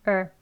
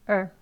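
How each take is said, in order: Both takes have the same delivery.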